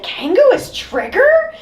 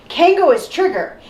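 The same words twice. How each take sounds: First: Very high, overblown astonishment; mock disbelief. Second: Higher-pitched declaration, falling at the end; character announcement. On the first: Critic mimicking the other character's reaction, hammed-up shock. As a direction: echo it as a shocked, squeaky question. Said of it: "the other person is like". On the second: Acted. Critic mimicking a character's obvious statement, declaring it. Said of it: "when you have a character saying".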